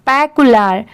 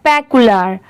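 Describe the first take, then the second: The two takes are said the same way.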